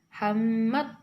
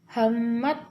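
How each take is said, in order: The two takes are said the same way.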